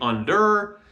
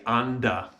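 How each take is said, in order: First: It is said with an American r-ending. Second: It is said British-style, ending in a schwa.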